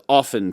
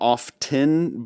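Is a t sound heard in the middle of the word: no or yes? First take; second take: no; yes. First: The word is said without a t sound. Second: The word is said with a t sound. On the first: This is the original pronunciation. "it was often forever" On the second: This pronunciation became accepted through common mistakes. "everybody pronounced it wrong so much... you can have your fucking tea"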